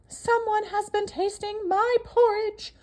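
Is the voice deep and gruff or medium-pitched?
medium-pitched. The voice is medium-pitched and moderate. A middle-sized character is speaking. "said the Mama Bear in her middle-sized voice"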